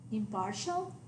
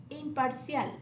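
First: Impartial with a sh sound, stress on PAR; English impartial, middle syllable stressed; English pronunciation. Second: Imparcial as eem-par-SYAL; Spanish imparcial, stress on final CIAL; Spanish pronunciation. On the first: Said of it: "The English word". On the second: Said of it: "stress on the last syllable". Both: Shown as a demonstration.

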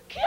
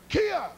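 First: KIA as a thin yell from the throat; wrong-way kia. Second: KIA yelled from the belly; kia from down low. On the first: Coach showing how not to yell, throaty KIA. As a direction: squeal KIA without support from below. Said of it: "you don't go". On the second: Coach showing the proper kia, belly-driven yell. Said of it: "You come from down here". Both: Shown as a demonstration.

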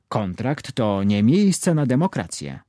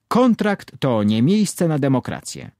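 First: Slowly, each word laid out, "miejsce" stressed; slow obedient repeat. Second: Firm, with the word "Kontrakt" hit hard at the start; emphatic correction. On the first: Trainee repeats his mentor's rule back, slow and obedient. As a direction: repeat it dutifully like a rote lesson. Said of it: "powtórzyłem". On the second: Trainer hammers the rule into his trainee, firmly emphatic. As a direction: drive it home like a trainer scolding. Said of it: "wrzasnął Tomek". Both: A narrator's reading.

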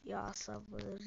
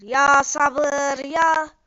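First: Much softer exasperated mutter; under the breath, begging for patience. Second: Louder exasperated cry; exasperated outburst. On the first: Gamer fed up with teasing players, muttering. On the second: Gamer fed up with teasing players, loud outburst. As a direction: let the frustration burst out. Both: Real, not acted.

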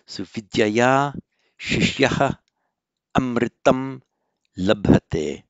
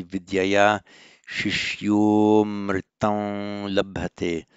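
First: Vidyaya shishyaha amritam labhate read word by word, loud; without sandhi. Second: Shishyomritam run together, slow and deliberate; with sandhi. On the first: Teacher reading the sentence before applying sandhi. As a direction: keep every word separate, no merging. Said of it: "that's without the sandhi". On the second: Teacher reading the sentence with sandhi applied. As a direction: merge shishyaha amritam into shishyomritam. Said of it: "With the sandhi". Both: Shown as a demonstration.

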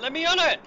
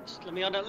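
First: Frustrated yell. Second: Said in the usual way. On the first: Real, not acted.

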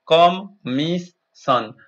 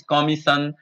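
First: "commission" slowly, each syllable split com-mis-sion; slow syllable-by-syllable "commission" for students; syllables spelled out. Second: Said in the usual way. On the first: Shown as a demonstration. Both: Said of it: "Listen to your teacher saying the words".

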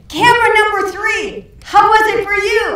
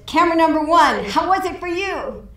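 First: Much higher, much louder, fast hollered question; shouting up to the catwalk. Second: Higher, louder director's call to the cameraman. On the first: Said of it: "So he says". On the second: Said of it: "And so he says". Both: Retold or imitated.

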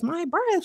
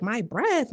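First: My breath jumps way up high in disbelief; outraged squeak. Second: Higher, indignant repeat of my breath; mock offended. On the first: Retold or imitated. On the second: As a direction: act insulted about breath. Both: Repeats phrase, rising outrage.

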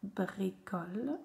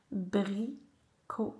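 First: Bricole joined into one slow word; syllables blended. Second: Bricole split as "bri - co - le"; syllable by syllable. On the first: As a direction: say Bricole whole, drawn out gently. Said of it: "coller les syllabes". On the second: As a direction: sound out Bricole slowly with gaps. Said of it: "faire les syllabes". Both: Shown as a demonstration.

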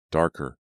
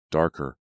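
The two takes are said the same way.

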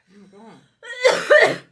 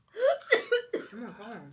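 First: High, loud, stretched laughing shriek; shrieking, laughing oh my God. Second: Slow, stretched-out amazement; drawn-out oh my God. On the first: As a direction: squeal it out through laughter. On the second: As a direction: stretch it out in disbelief. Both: Real, not acted. Friend watching her eat spicy powder.

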